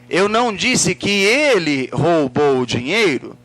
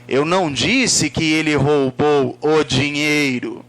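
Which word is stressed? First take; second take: ele; dinheiro. First: The word ele carries the emphasis. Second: The word dinheiro carries the emphasis. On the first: Someone else might have stolen it. "quem foi que roubou?" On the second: Something other than money might have been stolen. "Pode ter sido outra coisa"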